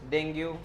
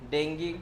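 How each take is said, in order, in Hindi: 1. इस शब्द का अंत 'oo' स्वर से होता है। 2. इस शब्द का अंत 'ee' स्वर से होता है। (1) "डेंगू चलेगा" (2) "इसको डेंगी बोलते हैं एक्चुअली"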